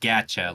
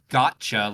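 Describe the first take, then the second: First: It sounds like 'gacha', without the 'got' sound. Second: It sounds like the word 'gotcha'. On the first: The speaker calls it right. "It's like gacha" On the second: The speaker calls it wrong. "it's not called gotcha like G O T C H A"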